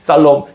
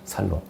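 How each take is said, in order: First: The word starts with a tense s sound. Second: The word starts with a plain s sound. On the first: "살도 쌀이라고 그래" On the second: "경상도 사람은 샬이 안 되고, 살"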